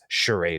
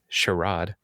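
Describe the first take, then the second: First: The word has an American pronunciation. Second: The word has a British pronunciation.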